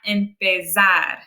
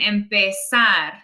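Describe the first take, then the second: First: The z is a strong buzzing z sound. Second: The z is a soft hissing s sound. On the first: The speaker calls it wrong. "not empezar" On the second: The speaker calls it right. "it's much softer and it sounds almost more like an S"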